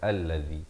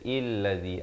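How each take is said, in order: First: The word begins with an a vowel. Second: The word begins with an i vowel. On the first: The speaker calls it right. "tapi baca alladzi" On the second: The speaker calls it wrong. "illadzi atau ulladzi"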